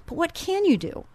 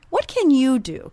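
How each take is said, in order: First: "you" lifted high and leaned on; stress on YOU. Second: "What" punched louder at the start; stress on WHAT. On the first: Host asking listeners, stress on "you". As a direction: land the question on "you". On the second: Host pressing listeners, stress on "What". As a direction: hit "What" hard, then fall. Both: Shown as a demonstration. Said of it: "repeated question, stress shifts".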